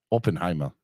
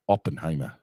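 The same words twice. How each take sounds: First: Said in the usual way. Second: Oppenheimer in a mock German accent, a touch lower; a quick hammed-up German Oppenheimer; lightly done German accent. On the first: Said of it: "Is that good?". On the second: Shown as a demonstration. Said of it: "say the title of the movie in a German accent".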